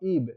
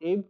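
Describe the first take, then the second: First: The vowel sounds like long 'ee'. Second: The vowel sounds like short 'eh'. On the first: "এটাকে কেউ কেউ ইবও উচ্চারণ করে"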